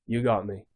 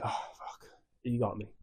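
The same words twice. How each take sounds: First: Said in the usual way. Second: Breathy whispered admission of defeat. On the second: Retold or imitated. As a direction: whisper it like a beaten villain. Villain admits defeat, whispered.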